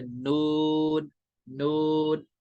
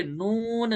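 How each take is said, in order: First: "नून" held long on an even note; correct level noon. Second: "नून" with pitch swung up and down; wrong wavering noon. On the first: Teacher showing students the right reading, level and long. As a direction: keep the oo of "नून" steady and stretched. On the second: Teacher showing students what not to do, wavering. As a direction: bend the note through "नून". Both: Shown as a demonstration. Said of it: "यहाँ पे नून नहीं करना है".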